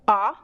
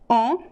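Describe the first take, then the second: First: The vowel is open, with the mouth wide. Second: The vowel is nasal, sounding through the nose. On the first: "aberta, which means an open sound" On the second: "Could be nasal"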